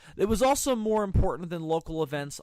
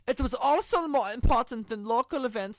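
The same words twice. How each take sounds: First: It is read in the speaker's normal accent. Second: It is read in a put-on German accent.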